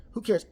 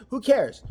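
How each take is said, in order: First: Said in the usual way. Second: First "Who cares?" hit louder with a falling end; punchy dismissive "Who cares?". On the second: Shown as a demonstration.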